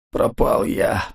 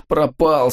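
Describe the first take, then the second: First: Breathless whispered moan. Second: Moaning. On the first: (стонущий шёпот) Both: Acted. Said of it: "стонал Ковальский".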